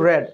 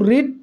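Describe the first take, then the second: First: The vowel is short, like 'red'. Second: The vowel is long, like 'reed'. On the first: This is the past participle form of the verb. "B three হিসেবে আমাদের pronunciation করতে হয় কিন্তু রেড" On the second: This is the base form of the verb. "এটা কিন্তু রিড ঠিকই আছে"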